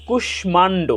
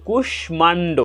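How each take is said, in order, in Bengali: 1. এটি সংস্কৃত উচ্চারণের নিয়ম অনুসারে বলা হয়েছে। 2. এটি সংস্কৃত উচ্চারণের নিয়ম অনুসারে বলা হয়েছে।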